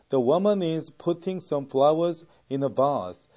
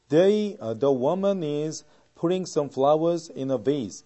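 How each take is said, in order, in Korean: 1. 이 문장은 영국식 억양으로 말합니다. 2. 이 문장은 미국식 억양으로 말합니다. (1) "이것이 바로 영국식 발음에 가까운 발음이 되겠죠" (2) "이게 미국식 발음이라면"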